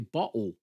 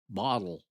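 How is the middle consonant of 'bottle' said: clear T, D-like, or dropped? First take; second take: dropped; D-like. First: The T and the L are both left out. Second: The middle consonant sounds like a D. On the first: "there's no T and no L" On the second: "it sounds like it's a D"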